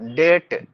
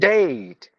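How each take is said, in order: First: The vowel is a short single e sound. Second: The vowel glides as a two-part diphthong. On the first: The speaker calls it wrong. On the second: The speaker calls it right.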